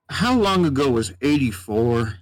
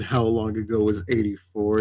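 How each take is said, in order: First: Lightly voiced puzzled old cowboy; a hint of a cowboy who has lost track of the years. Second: Said in the usual way. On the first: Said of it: "he just was very much cowboy sounding". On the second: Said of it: "I just repeated".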